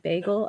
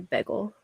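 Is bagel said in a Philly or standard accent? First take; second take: standard; Philly. First: It is said with a standard accent. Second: It is said with a Philadelphia accent. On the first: "instead of saying bagel" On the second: "I say bagel"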